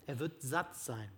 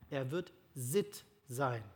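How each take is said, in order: First: Said in the usual way. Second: Sitt spoken slowly with a short i in place of satt; sitt instead of satt. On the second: Shown as a demonstration. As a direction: slip in the new word sitt, slow and soft. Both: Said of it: "Sitt, das könnte das Wort sein".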